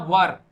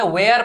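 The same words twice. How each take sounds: First: 'वर' as one short wur syllable; correct were. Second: 'वेयर' with an ey glide, like where; wrong were. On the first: Teacher giving students the right were, 'वर' in one syllable. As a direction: say 'वर' with a neutral vowel. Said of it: "इसे हमें pronounce करना". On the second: Teacher warning against it, 'वेयर' with ey glide for were. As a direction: stretch 'वेयर' into vey-ar. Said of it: "वेयर pronounce नहीं करना है". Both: Shown as a demonstration.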